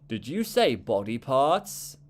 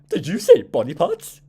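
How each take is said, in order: First: It is said in a plain, everyday voice. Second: It is said in a put-on character voice.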